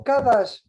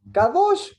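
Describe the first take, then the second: First: Kadash with an a in place of the o, ka-DASH; Kadash, the same root with only the vowel changed. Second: Kadosh said high and loud, with a clear o; Hebrew word Kadosh. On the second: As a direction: stress the o in Kadosh, ka-DOSH. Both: Shown as a demonstration. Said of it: "cambia simplemente la vocal".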